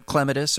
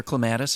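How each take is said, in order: First: Clematis as KLEM-uh-tis; first-syllable stress. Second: Clematis as kluh-MAT-is; second-syllable stress. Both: Shown as a demonstration. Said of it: "however you wanna say it".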